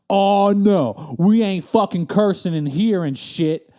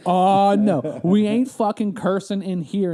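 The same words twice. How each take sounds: First: Louder, slow, scandalized clerk voice; a clerk telling off a cursing customer, slow and loud; huffy clerk. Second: Loud offended clerk, drawn out slow; a clerk scolding again, slow and loud; huffy clerk repeated. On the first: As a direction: scold like an offended DMV clerk. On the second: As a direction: repeat her scolding with mock outrage. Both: Retold or imitated. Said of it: "that's what she said".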